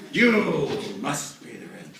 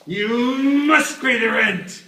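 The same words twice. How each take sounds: First: Slow, loud, higher villain demand; melodrama villain. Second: Booming, slow, high villain voice; melodrama villain. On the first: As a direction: drag out the threat. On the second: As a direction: loom over them and demand it. Melodrama villain demanding rent. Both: Pretend.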